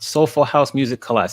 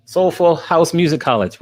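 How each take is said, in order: First: COLLAGE said kuh-LAHZH, stressed at the end; self-corrected pronunciation. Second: COLLEGE said with stress up front, KOL-ij; tongue-twisted slip. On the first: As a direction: repeat the name corrected, ending on Collage with a long AH. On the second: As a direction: misread the name, ending on COLLEGE as in school. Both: Real, not acted. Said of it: "get my little tongue twisted".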